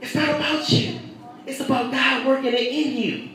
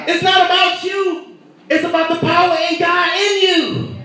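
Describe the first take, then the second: First: "It's not about you" dropped much softer, almost confiding; preacher to congregation, quiet and intimate; softened repeat. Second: Raised, punching NOT in "It's not about you"; preacher to congregation, strong stress on "not"; emphatic preaching. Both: Acted. Preacher repeats line loud then soft.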